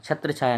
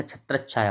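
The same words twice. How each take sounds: First: छत्र छाया as two words, single "chh"; wrong form. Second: छत्र छाया joined with doubled "ch-chh"; corrected form. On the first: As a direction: say छत्र छाया with no doubled consonant between. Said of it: "छत्र छाया नहीं". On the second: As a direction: hold the consonant in छत्र छाया, "chhatrach-chhaya". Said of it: "छत्र छाया होता है". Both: Shown as a demonstration.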